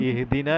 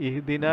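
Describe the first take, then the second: No difference in how they are said.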